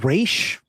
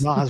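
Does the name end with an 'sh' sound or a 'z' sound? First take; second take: sh; z. First: The name ends with an 'sh' sound. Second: The name ends with a 'z' sound. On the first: This is the Arabic-style pronunciation. "his name in the comics is Raish" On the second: This is how the film pronounces it. "They pronounce it Raz"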